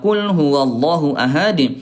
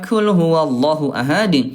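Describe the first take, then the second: First: The first word begins with a deep qaf. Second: The first word begins with a light kaf. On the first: Say: He is Allah, the One. The speaker calls it right. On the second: Eat: He is Allah, the One. The speaker calls it wrong.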